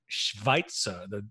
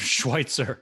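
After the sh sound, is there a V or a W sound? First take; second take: V; W. First: A V sound follows the sh sound. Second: A W sound follows the sh sound. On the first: The speaker calls it right. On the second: The speaker calls it wrong.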